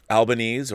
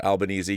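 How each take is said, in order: First: Albanese said al-ba-NEEZ; Albanese ending in -eez. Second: Albanese said al-ba-NEE-zee; Albanese ending in -eezee. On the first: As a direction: say Albanese with a silent final E. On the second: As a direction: sound the final E of Albanese as "ee". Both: Shown as a demonstration. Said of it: "don't even know how to pronounce it".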